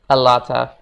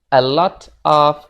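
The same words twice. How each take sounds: First: The words are linked into one. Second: The words are said separately.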